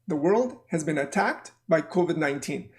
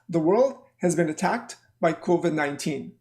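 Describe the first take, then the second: Both takes have the same delivery.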